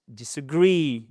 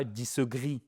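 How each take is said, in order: First: "disagree" with the last syllable GREE stressed and falling. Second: "disagree" with flat, even syllables, no stress; the wrong even "disagree". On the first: Teacher drills the stress in "disagree". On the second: Teacher shows learners' wrong "disagree" with no stress. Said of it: "C'est pas disagree". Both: Shown as a demonstration.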